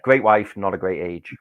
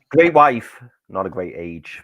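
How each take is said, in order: First: The line is said quietly. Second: The line is said loudly.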